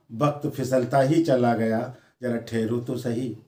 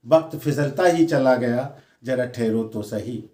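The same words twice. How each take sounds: The two takes are said the same way.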